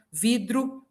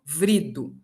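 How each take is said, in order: First: "vidro" com dro no final; R na última sílaba. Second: "vrido" com vr no começo; R transposto. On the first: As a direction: diga "vidro": vi-dru. ("vidro" com tom mais agudo, R depois do d) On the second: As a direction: diga "vrido": vri-du. ("vrido" em tom mais grave, R depois do v) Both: Shown as a demonstration. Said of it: "o som troca de lugar".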